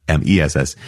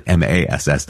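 First: M E S S spelled letter by letter, E stressed; M E S S said as separate letters. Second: M A S S spelled letter by letter; M A S S said as separate letters. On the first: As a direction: spell out M E S S, each letter clear. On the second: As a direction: spell out M A S S, each letter clear. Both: Shown as a demonstration. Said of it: "not E, M E S S".

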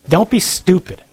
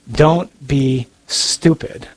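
First: Said in the usual way. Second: DON'T BE STUPID, drawn out word by word; slow, deliberate repeat for emphasis; slow emphatic warning. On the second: Shown as a demonstration. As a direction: say "Don't be stupid" very slowly, each word separated.

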